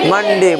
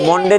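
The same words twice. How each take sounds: First: मंडे with a short a, "man-de"; correct reading demo. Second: मंडे with an o, "mon-de"; wrong reading demo. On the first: Teacher models the rule for students, मंडे as "man-de". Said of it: "मंडे नहीं पढ़ेंगे". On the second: Teacher shows the reading to avoid, मंडे as "mon-de". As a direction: say मंडे with a round o in the first syllable. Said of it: "नहीं पढ़ेंगे". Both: Shown as a demonstration.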